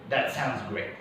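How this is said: The words run together as one smooth unit. The speaker calls it right. "It's one chunk"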